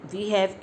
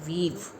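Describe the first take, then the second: First: Two full words with an h sound. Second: One contracted syllable with no h sound. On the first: "वी हैव की जगह" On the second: "ह की आवाज़ नहीं आएगी"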